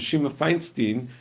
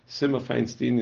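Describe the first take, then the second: First: The name begins with a 'sh' sound. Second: The name begins with an 's' sound.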